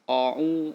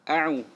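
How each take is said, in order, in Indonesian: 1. Vokal pertama dibulatkan seperti 'o'. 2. Vokal pertama adalah 'a' yang tipis dan terbuka. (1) "itu salah" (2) "A tipis dibuka"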